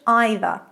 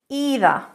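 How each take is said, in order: First: It has the British first vowel. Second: It has the American first vowel.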